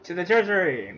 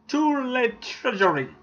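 First: It is said in the speaker's ordinary accent. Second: It is said in a put-on French accent.

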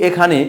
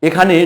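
Both takes have the same delivery.

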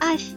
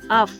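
First: The f sound is soft and palatalized. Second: The f sound is hard, not palatalized. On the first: "А як скаже Фіма?" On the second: "Федір каже твердо"

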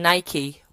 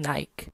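First: It is said with an American pronunciation. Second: It is said with a British pronunciation.

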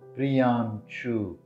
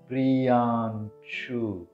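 First: The name is said at normal speed. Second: The name is said slowly.

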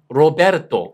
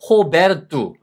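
First: The name begins with an R sound. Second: The name begins with an H sound. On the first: "로베르토 이렇게 읽어도 되고요" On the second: "포르투기즈 같은 데 가면은 이게 호 발음이 되는 거예요"

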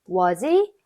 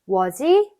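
Both takes have the same delivery.

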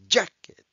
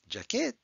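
First: The stress is on the first syllable. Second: The stress is on the second syllable. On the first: The speaker calls it right. "Jack is in bold letters, which means that's the strong syllable" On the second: The speaker calls it wrong. "It's not jacket"

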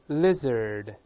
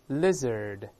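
Both takes have the same delivery.

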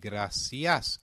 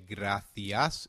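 First: The c is pronounced like 's'. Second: The c is pronounced like 'th'. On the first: "in Latin American Spanish" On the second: "in European Spanish"

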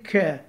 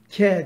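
First: The k is thick, made far back. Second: The k is thin, made at the front. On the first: The speaker calls it right. "Kef biraz kalın geriden çıkıyor" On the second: The speaker calls it wrong. "K değil de"

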